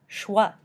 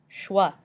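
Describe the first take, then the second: The two takes are said the same way.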